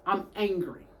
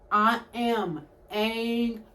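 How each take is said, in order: First: Said in the usual way. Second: Each word of "I am angry" slow and separate; angry, drawn-out emphasis. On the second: Real, not acted. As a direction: stretch out "angry", syllable by syllable.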